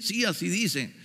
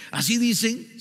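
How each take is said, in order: First: Retold quiet confirmation on "Sí, así dicen"; confirming. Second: "¿Así dicen?" lifted high as a hopeful question; retold doubting question on "¿Así dicen?". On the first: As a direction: answer "Sí, así dicen" as a settled statement. Brother confirms. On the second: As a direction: ask "¿Así dicen?" with raised pitch, seeking confirmation. Pastor doubtfully asks for confirmation.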